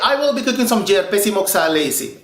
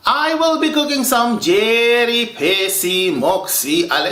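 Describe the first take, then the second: First: The dish name is said shortened and run together. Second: The dish name is said fully, word by word. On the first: This is how people really say it. The speaker calls it right. "We say" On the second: Nobody really talks like this. The speaker calls it wrong. "nobody has time to speak like that"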